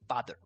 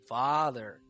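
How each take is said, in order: First: It sounds short and rushed, made in the mouth. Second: It sounds full, with air from deep inside. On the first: The speaker calls it wrong. "this is what it sounds like when I produce it in my mouth" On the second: The speaker calls it right. "you need to hear that air coming from inside of your body like this"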